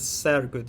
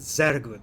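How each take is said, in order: First: The word begins with an S sound. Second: The word begins with a Z sound. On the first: The speaker calls it wrong. "It's not S, right? You do not pronounce it as" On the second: The speaker calls it right. "You pronounce it"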